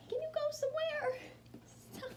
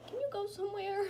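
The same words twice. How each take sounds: First: Very high, loud coaxing of a pet; squeaky dog talk. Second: High, loud coaxing of a pet; dog talk. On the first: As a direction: pitch it way up to excite the dog. Coaxing her dog, repeated higher. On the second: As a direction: coax the dog in a raised voice. Coaxing her dog, repeated. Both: Real, not acted.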